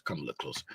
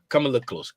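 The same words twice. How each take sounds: First: Much lower, much softer hush; drawing viewers closer, soft. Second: Said in the usual way. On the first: Shown as a demonstration. Pulling the audience in close, hushed. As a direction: lean in and hush the voice.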